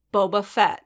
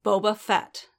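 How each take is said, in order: First: Dangerous tone. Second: Each word of "Boba Fett" spaced and deliberate; slow and clear. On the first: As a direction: say the name as a warning. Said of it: "he repeated dangerously". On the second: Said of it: "slowly and clearly". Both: A narrator's reading.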